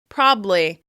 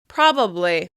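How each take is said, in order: First: The middle syllable is dropped, leaving two. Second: All three syllables are pronounced clearly. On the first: "They'll drop that middle syllable" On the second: "I tend to pronounce it as three syllables"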